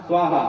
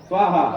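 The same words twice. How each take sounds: No difference in how they are said.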